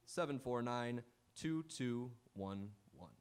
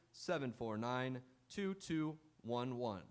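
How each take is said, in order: Both takes have the same delivery.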